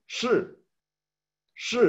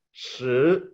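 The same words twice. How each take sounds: First: "Shi" said with a sharp drop; falling tone. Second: "Shi" rising like a question. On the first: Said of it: "con tono descendente". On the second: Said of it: "con tono ascendente". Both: Shown as a demonstration.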